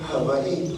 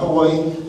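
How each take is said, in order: First: The middle consonant is a V sound. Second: The middle consonant is a W sound. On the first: The speaker calls it right. "the V sound" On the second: The speaker calls it wrong. "Not Hawaii"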